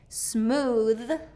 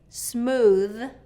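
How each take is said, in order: First: It ends with a th sound. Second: The same.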